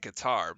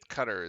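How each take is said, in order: First: It is said with an American pronunciation. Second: It is said with a European pronunciation. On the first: "us Americans say Qatar" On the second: "I believe Qatar is actually the how you would say it if you're from like the Europeans would say"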